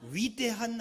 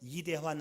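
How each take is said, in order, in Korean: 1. 단어는 'wi' 활음으로 시작합니다. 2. 단어는 평범한 'i' 소리로 시작합니다. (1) "위대한 하나님에 대한 믿음" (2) "발음을 잘 해야 돼요. 이대한 하나님이 아니라"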